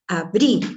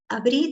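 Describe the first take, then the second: First: It is said firmly, like a sharp command. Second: It is said softly, like a gentle suggestion. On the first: The listener is being ordered to do it. The speaker calls it wrong. "dándote una orden" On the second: The listener is being invited to do it. The speaker calls it right. "te sugiero que abras en forma de abanico"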